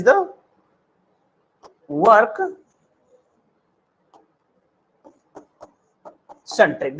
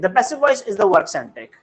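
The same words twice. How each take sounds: First: Slow, word by word with long pauses; teacher pausing before each word so students can follow; slow dictation. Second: Said in the usual way. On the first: Shown as a demonstration. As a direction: spell it out slowly for the class, pausing between words. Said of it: "teacher dictates slowly, word by word". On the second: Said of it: "teacher repeats the line normally".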